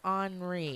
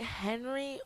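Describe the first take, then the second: First: The name is said with a French accent. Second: The name is said the plain English way.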